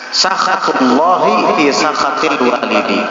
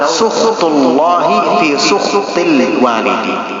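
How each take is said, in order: First: The key word is said with two 'a' vowels. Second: The key word is said with 'u' and no second vowel. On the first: "sin dan kha-nya fathah" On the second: "ala wazni kuful"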